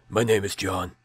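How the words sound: It is said in a put-on deep voice.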